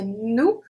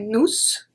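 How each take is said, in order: First: The final S is silent. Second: The final S is pronounced. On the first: The speaker calls it right. "we say nous sommes" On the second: The speaker calls it wrong. "We don't say nous"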